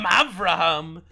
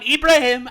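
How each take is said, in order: First: It begins with 'ah' and has a 'v' sound. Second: It begins with 'ee' and ends in 'heem'. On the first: "In Israel, they call him Avraham" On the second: "the Arabs, they call him Ibrahim"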